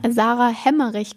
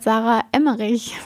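First: The surname begins with an h sound. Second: The surname begins directly with a vowel. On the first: Other people say the name this way by mistake. The speaker calls it wrong. "ich werde manchmal Sarah Hemmerich genannt" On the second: This is how the name should be said. The speaker calls it right. "statt Sarah Emmerich"

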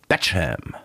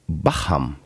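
First: The name sounds like the surname Beckham. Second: The name does not sound like Beckham. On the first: Other people mistook the place name for the footballer's name. The speaker calls it wrong. "das ist nicht wie Beckham, David Beckham, falsch geschrieben oder ausgesprochen" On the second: It is the name of a place on a lake. The speaker calls it right. "sondern wirklich ein Ort am Chiemsee namens Bacham"

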